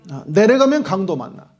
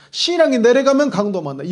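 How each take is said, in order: First: Said in the usual way. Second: 신앙이 lifted and punched a little higher; stress on 신앙이. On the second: Shown as a demonstration. Preacher warning the church, leaning on 신앙이. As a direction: lean into 신앙이 and let the rest fall.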